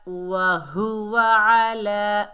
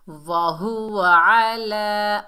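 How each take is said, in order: Both takes have the same delivery.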